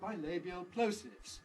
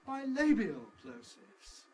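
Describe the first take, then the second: First: The main stress falls on plosives. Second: The main stress falls on bilabial. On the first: The speaker calls it wrong. "in each intonation group, plosives has the nucleus" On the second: The speaker calls it right. "We don't want to put the nucleus on a repeated word"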